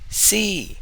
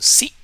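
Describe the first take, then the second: First: The vowel is raised to a high pitch. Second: The vowel is short and clipped. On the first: "Your voice should go up" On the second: "the short tone C"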